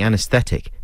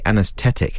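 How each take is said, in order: First: The th sound is clearly pronounced. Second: The th sound is said without the h. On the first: The speaker calls it right. "instead of saying anesthetic" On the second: The speaker calls it wrong. "Put the H back in there"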